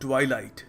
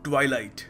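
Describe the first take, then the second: First: The first vowel sounds like 'eye'. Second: The same.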